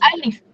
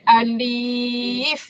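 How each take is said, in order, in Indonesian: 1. Vokalnya dibaca pendek. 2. Vokalnya dibaca panjang. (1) "pendek saja" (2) "bukan alif"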